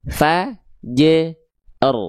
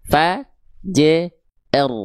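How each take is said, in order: The two takes are said the same way.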